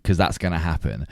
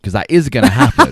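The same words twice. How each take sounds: First: Dry and understated, as if doubtful; unintentionally sarcastic. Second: Louder, higher, IS punched emphatically; sincere insistence on IS. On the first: Host on friend's dream of winning a bafta, unintentionally sarcastic. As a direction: let it sound accidentally sarcastic. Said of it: "that sounded sarcastic". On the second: Host reassuring friend after sounding sarcastic, emphatic stress on "is". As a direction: stress "is" to take back any sarcasm. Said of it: "sorry, that sounded sarcastic". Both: Real, not acted.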